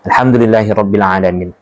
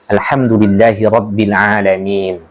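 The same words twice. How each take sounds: First: The vowel near the end is short. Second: The vowel near the end is long. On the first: The meaning of the verse is changed. The speaker calls it wrong. "Itu masuk kesalahan fa fatal" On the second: The verse keeps its meaning. The speaker calls it right. "Ada panjang di ujung"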